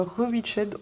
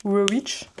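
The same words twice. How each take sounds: First: English title said with a French accent; Rewitched in a plain French accent. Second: Tentative English pronunciation of Rewitch; English accent. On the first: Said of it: "avec l'accent français". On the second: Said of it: "et avec l'accent anglais". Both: Shown as a demonstration.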